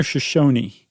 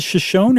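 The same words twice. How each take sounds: First: Shoshone in three syllables, sho-SHOH-nee; Shoshone with final ee. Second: Shoshone in two syllables, sho-SHOHN; Shoshone without final ee. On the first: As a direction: sound the last E of Shoshone as "ee". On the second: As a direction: end Shoshone on the N, silent E. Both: Shown as a demonstration. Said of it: "Is it Shoshone or Shoshone?".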